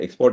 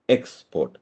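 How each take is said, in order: First: The stress is on the second syllable. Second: The stress is on the first syllable. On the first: It is the action of sending goods out. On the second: It is the thing sent out.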